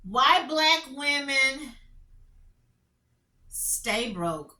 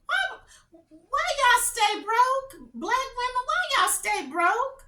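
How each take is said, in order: First: Said in the usual way. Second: Much higher, slow, drawn-out challenge; exasperated mock question. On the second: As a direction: throw the question back in mock outrage. Mocking headline to viewers.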